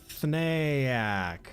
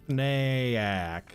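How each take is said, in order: Both takes have the same delivery.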